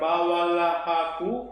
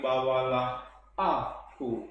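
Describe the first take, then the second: First: The two words run together without a break. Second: The two words are clearly separated before aku. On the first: The speaker calls it wrong. "bukan bawalah aku" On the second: The speaker calls it right. "ada bunyi konsonan H pada bawalah, engkaulah itu yang harus jelas dipisahkan dari vokal A pada kata berikutnya"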